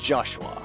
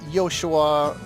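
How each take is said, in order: First: The name begins with a J sound. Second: The name begins with a Y sound. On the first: "a J sounds like a J" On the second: "J is pronounced as a Y sound"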